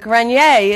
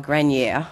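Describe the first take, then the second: First: The name is said with a French pronunciation. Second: The name is said with an American pronunciation. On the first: "is how the French really pronounce it" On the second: "it's been Americanized to Grenier"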